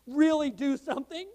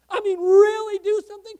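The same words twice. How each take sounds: First: Said in the usual way. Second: REALLY punched loud and high; emphatic, raised-voice "really"; stress on really. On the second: Real, not acted. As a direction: hit "really" hard, much louder and higher. Repeats it with heavy emphasis.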